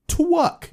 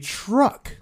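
First: The word begins with a W sound. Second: The word begins with a clear R sound. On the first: The speaker calls it wrong. "You're saying twuck" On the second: The speaker calls it right. "Say truck"

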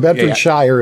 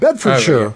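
First: It is said with an American pronunciation. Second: It is said with a British pronunciation. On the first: This is how an outsider says the name. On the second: This is how locals say the name.

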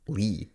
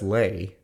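First: The vowel sounds like the one in 'see'. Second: The vowel sounds like the one in 'day'. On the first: The speaker calls it wrong. "not Lee" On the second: The speaker calls it right. "I'm pretty sure that's Lay"

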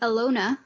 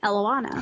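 First: The name is said without an added vowel. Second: The name is said with an added vowel. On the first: The speaker calls it right. "I found Elona" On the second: The speaker calls it wrong. "I was pronouncing it like Eloanna"

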